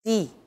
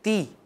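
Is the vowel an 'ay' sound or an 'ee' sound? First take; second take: ee; ee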